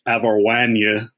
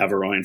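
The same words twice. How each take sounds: First: The name is said with a French pronunciation. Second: The name is said with an anglicized pronunciation. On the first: The speaker calls it right. "a French speaking person told me how to pronounce it. It's Averroine" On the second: The speaker calls it wrong. "I always called it Averroine for my entire adult life until like last year"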